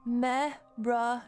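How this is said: It is said in an American accent.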